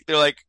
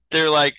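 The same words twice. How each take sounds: The two takes are said the same way.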